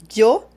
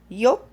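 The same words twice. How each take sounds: First: The first sound is a 'dj' sound. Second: The first sound is a soft 'ee'-like glide. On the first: "como una D J" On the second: "como si fuera una I, una I flaca"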